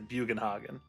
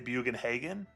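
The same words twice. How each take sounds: First: The name is pronounced in a German way. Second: The name is pronounced in a plain English way. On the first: This is the more educated adult way. The speaker calls it right. "more educated in my adult life, so I say ... So German" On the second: This is how it was said in childhood. The speaker calls it wrong. "As a kid, I used to say"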